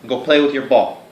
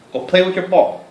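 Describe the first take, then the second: First: Said in the usual way. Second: High, louder coaxing; higher pet-talk command. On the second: Real, not acted. Urging the dog to go play in high pet talk.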